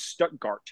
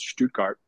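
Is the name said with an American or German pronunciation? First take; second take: American; German. First: It is said with a Southern American pronunciation. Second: It is said with a German pronunciation. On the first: The speaker calls it wrong. "we pronounced it much differently in the south of the USA" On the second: The speaker calls it right. "properly it was Stuttgart"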